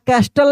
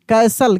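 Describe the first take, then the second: First: A t sound is pronounced in the middle. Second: No t sound is pronounced in the middle. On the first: The speaker calls it wrong. "कास्टल या कैस्टल नहीं" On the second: The speaker calls it right.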